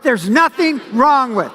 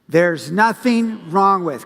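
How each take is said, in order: First: It is said with punchy, forceful energy. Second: It is said calmly, without extra energy.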